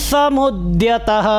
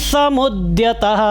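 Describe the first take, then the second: The two takes are said the same way.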